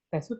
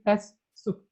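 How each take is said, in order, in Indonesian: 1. Bunyi s pendek, tunggal. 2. Bunyi s panjang, ganda. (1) "bukan tes sub" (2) "pengucapannya juga agak panjang, ... tapi tes sub"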